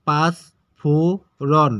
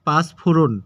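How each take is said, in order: First: panch phoron slow, three syllables with gaps; broken into syllables. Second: Said in the usual way. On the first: Shown as a demonstration. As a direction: chop panch phoron into separate drawn-out syllables. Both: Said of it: "এটাকে ভেঙে উচ্চারণ".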